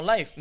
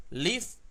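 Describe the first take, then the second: First: Live said as "laif", with an ai diphthong like life; laif pronunciation. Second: Live said as "lif", short i, ending in an f sound; lif pronunciation. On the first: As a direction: say live like "laif", vowel opening into ai. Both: Shown as a demonstration. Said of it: "ini yang mana benar ini bacanya".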